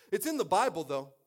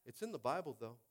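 First: Loud, raised-pitch protest; emphatic defence. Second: Said in the usual way. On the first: Real, not acted. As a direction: burst out in self-justification. Loud defence, later repeated plainly.

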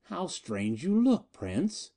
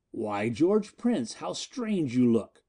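First: Higher, slow, gloating sneer; mock him with cruel delight; sardonic. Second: Slow, mocking drawl; sardonic. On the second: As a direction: savour each word with scorn. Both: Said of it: "Miko's sardonic voice came again".

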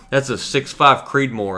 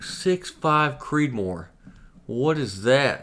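First: Slow, higher-pitched explanation; earnest clerk. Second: Drawn-out, high, clueless echo; feigned bafflement. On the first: Clerk correcting the customer's wrong guess, earnest. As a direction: imitate a clerk patiently naming it. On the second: Customer trolling the clerk, mock-baffled. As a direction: play dumb, stretching out the question. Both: Retold or imitated.

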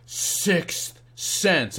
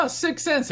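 First: SIX and CENTS drawn out with a gap between; slow, word-by-word "Six ... cents" as the meaning lands; dawning realisation. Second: High-pitched retold discovery; quick, high "oh" of noticing something; sudden noticing. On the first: Retold or imitated. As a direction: stretch "Six", pause, then a weighty "cents". Second reading, the double meaning dawns. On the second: First reading of the coins.

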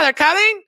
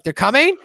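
First: Very high, loud repeated warning; urgent insistence. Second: High, louder, rising at the end; mock disbelief, lifting into a question; startled question. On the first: Acted. Kenny answering Cartman's question, high insistent yell. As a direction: yell it as a mock-frantic statement. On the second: Cartman questioning Kenny's warning, high startled question.

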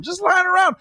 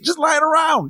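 First: Much higher, shouted in mock outrage; incredulous shout; shouted disbelief. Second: Way higher, incredulous; mock amazement. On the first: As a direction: yell it like you can't believe it. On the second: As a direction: act amazed at the spare money. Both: Mocking states' surplus money.

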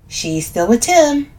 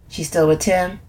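First: Slow, higher "She's still with Tim"; confirming. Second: "She's still with Tim?" as a casual question; asking for confirmation. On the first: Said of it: "I confirm". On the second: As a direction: ask "still with Tim" in a usual-pitched voice. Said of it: "She's still with Tim, I confirm". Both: A narrator's reading.

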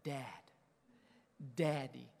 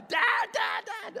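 First: Softly imitated child, low-key; little daughter's address. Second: High, loud mock scream; imitated child's screaming. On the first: Daughter looking at her father, softly voiced. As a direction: say it small and tender. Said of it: "Peyton looks at me and says". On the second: Daughter screaming for her dad, comic high imitation. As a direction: shriek it like a demanding kid. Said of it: "she's usually screaming it".

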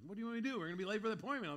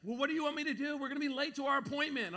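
First: Said in the usual way. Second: Higher, louder whiny wife voice; mock impatient wife. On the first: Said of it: "she wasn't saying it like that". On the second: Wife complains they will be late, mock whiny higher voice. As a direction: play the exasperated wife. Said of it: "She's like".

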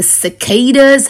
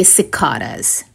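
First: Said in the usual way. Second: "cicadas" with a broad ah, si-KAH-dus; proper pronunciation. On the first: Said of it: "if you ask me to pronounce it in a proper way". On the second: Shown as a demonstration. Host shows listeners his proper way: "cicadas" as si-KAH-dus. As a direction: say "cicadas" as si-KAH-duz, stress on the long KAH. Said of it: "pronounce it in a proper way".

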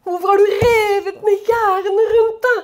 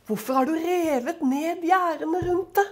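First: A lament, half-sobbing at the torn-down fences; crying plea. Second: Quietly read, a softer voice; hushed, gentle reading of the verse. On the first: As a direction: voice breaking with tears. Preacher repeats verse, voice crying. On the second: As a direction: read it softly, almost to yourself. Preacher reads the verse twice. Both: Acted.

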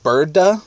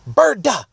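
First: Said in the usual way. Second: Yelled out high and sudden; loud scream. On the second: Retold or imitated. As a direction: scream it at the birds. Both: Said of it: "except I said it real loud".

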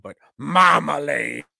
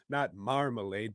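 First: "marmalade" shouted in a put-on British voice; loud hammed-up British "marmalade". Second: "marmalade" said softly in plain voice; "marmalade" as a flat aside. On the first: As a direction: bellow "marmalade" the mock-British way. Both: Shown as a demonstration. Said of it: "Not marmalade, but marmalade".

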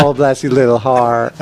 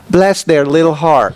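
First: Slow, mock-sweet Southern "bless your little heart"; sweetly mocking like a Southern lady; sugary Southern. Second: Slow, lightly Southern "Bless their little heart"; a hint of a sweet Southern mom; Southern mother. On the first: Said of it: "that means, like, F you". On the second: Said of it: "a line from my mother".

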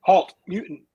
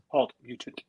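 First: High, loud attempt at a robot voice. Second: Said in the usual way. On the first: Shown as a demonstration. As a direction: bark it like a robot guard. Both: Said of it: "I can't do a robot voice".

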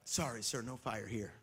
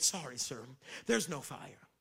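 First: Hotel lady, softer. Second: Hotel lady. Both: Retold or imitated. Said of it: "This is what the lady said to me".

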